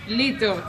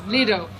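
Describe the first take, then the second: First: The middle t sounds like a soft d. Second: The same.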